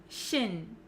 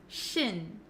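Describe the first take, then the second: First: The ending has a short 'i' vowel. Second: The ending has a short 'i' vowel.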